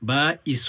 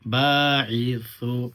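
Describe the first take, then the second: First: The middle consonant is a plain hissed s. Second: The middle consonant is a soft th sound. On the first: The speaker calls it wrong. "বা ইসু বলবেন না" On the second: The speaker calls it right. "একটু নরম করে জিহ্বার মাথাটা হচ্ছে সামনে দাঁতের দাঁতের আগার সঙ্গে লাগায়"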